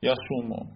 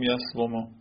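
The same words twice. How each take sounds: First: یسومو said ya-soo-mo, with a long u; ya-soo-mo, no v sound; easier silenced form. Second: یسومو said yas-vo-mo, with the w as a consonant; yas-vo-mo, vowel on the w; hard original form. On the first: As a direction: let the w in یسومو melt into a long oo. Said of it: "چقدر تلفظ راحت کرد". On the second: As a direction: sound the v after a closed first syllable in یسومو. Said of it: "سخت دیگه". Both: Shown as a demonstration.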